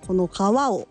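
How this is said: It is said with Kumamoto dialect intonation. "熊本弁はこの川を"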